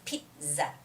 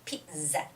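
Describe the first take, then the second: The two takes are said the same way.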